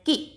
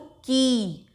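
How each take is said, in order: First: The vowel is short and said quickly. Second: The vowel is long and drawn out. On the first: "उसको हम जल्दी से बोलते हैं" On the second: "बड़ी की मात्रा लगेगी तो"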